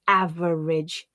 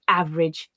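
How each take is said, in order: First: Each word is said with an extra syllable. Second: Each word is said with one syllable dropped. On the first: The speaker calls it wrong. "my learners would often read as" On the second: The speaker calls it right. "they tend to be reduced to"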